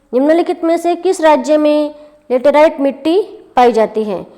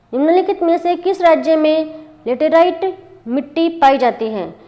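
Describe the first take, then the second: No difference in how they are said.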